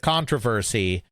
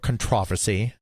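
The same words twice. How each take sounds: First: It is said with an American pronunciation. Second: It is said with a British pronunciation.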